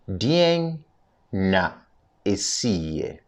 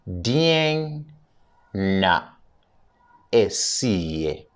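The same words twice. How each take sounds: First: The phrase is said at a normal, quicker pace. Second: The phrase is said at a slower pace.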